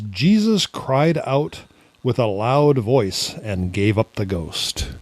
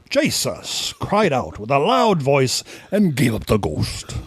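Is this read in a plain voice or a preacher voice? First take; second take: plain; preacher. First: It is read in an ordinary speaking voice. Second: It is read in a put-on preacher voice.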